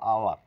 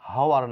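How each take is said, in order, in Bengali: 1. শব্দটি স্বরধ্বনি দিয়ে শুরু হয়। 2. শব্দটি h ধ্বনি দিয়ে শুরু হয়। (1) "বলবো আওয়ার, এইচ এর সাউন্ড নেই" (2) "হাওয়ার না বলে"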